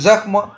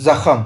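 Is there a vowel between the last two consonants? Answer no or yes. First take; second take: no; yes. First: The final consonants are said together without a vowel. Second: A vowel is inserted between the final consonants.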